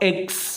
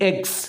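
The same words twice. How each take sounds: Both takes have the same delivery.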